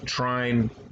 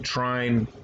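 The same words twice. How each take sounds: First: The word is said the American way. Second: The word is said the American way.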